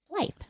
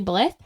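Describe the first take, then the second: First: The vowel is long, as in 'bite'. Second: The vowel is short, as in 'with'. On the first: The speaker calls it right. "there's a silent E. It would say blithe" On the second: The speaker calls it wrong. "I would actually want to say blith"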